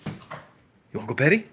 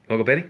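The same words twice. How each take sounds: First: Hushed coaxing whisper; whisper to the dog. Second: Said in the usual way. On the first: Real, not acted. Teasing the dog quietly.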